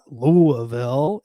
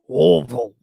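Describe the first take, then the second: First: Every syllable of the word is said clearly. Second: The whole word is mumbled together. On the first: The speaker calls it wrong. "it's not Louisville" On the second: The speaker calls it right. "you just kind of mumble the whole word"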